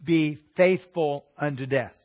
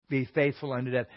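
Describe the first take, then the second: First: Be faithful unto death, read slowly with weight on faithful; slow solemn reading. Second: Said in the usual way. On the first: Shown as a demonstration. Preacher reading the verse aloud to the class, slow and solemn. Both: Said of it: "it says".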